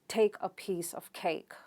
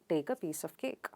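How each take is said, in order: First: A standard accent, with strong aspiration. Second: An Indian accent, with no puff of air. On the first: "the standard variety of English would uh, use aspiration" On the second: "Indians would pronounce it without aspiration"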